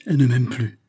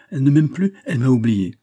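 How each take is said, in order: First: Falling cry of dismay; distraught exclamation. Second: High, loud despairing cry; distraught outburst. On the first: Philippe hears of Marthe's decision, distraught exclamation. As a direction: exclaim it, shaken, with some force. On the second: Philippe convinced Marthe has forgotten him, loud distraught cry. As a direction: raise pitch and volume, rising on "plus". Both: A narrator's reading. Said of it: "s'écria Philippe, bouleversé".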